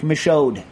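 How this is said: The name is said with an American pronunciation. "if I'm going to do it American-style"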